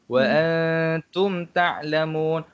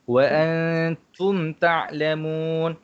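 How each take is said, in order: Both takes have the same delivery.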